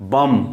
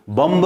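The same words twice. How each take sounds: First: "बम" ending on m, b silent; right bomb. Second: "बम्ब" with a sounded b at the end; wrong bomb. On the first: Teacher models the right "बम" for students, b silent. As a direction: close "बम" on the m. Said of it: "B O M B". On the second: Teacher shows students the wrong "बम्ब", b sounded. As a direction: push the b in "बम्ब" to show the mistake. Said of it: "बम्ब नहीं बोलते". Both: Shown as a demonstration.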